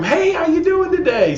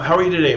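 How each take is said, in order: First: It is said with a warm, smiling voice. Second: It is said in a flat, unsmiling voice.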